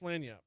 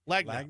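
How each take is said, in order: First: The g is silent, sounding like lan-yap. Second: A hard g is sounded, like lag-nap. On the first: The speaker calls it right. "he still can't pronounce Lanyap" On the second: The speaker calls it wrong. "but he still pronounced that G"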